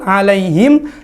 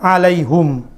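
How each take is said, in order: First: The word ends in him with no vowel after. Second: The word ends in hum with no vowel after. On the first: "dibaca sukun" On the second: "alaihim membaca dengan alaihum"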